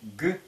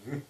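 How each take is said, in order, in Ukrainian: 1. Язик повністю змикається, і виходить проривне «г». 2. Язик лише наближається, і виходить щілинне «г». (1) "а лишь приближаются не «г»" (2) "Не смыкаются, а только приближаются"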